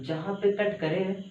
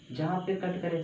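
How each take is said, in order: First: "जहाँ पे cut करे" said slowly, each word spaced, rising at the end; slow, stressed rule. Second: Said in the usual way. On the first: Shown as a demonstration. Teacher repeating the key rule to students, slow and deliberate. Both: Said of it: "अब देखो मैं बोला कि जहाँ पे cut करे".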